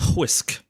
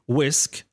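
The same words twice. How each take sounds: First: An h sound comes before the w. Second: No h sound comes before the w. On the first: "the way that the Irish people pronounce this one" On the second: "like a normal English word"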